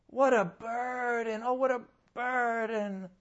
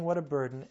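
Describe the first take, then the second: First: Drawn-out mock complaint, higher; mimicking a grumbling believer's sigh; mock whining. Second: Said in the usual way. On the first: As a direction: groan the words like a burdened whiner. Mocking complaining churchgoer.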